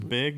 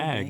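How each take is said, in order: First: The vowel is raised, like the vowel in 'beg'. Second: The vowel is open, like the vowel in 'bag'. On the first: "She says it's a beg"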